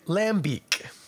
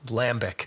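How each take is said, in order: First: The final syllable is said like 'beak'. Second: The final syllable is said like 'bick'. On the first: The speaker is being pretentious and authentic. The speaker calls it right. "if you want to pronounce it properly and also sound a little insufferable" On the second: The speaker is reading it as it is spelled. The speaker calls it wrong. "we see L-A-M-B-I-C and we go lambic"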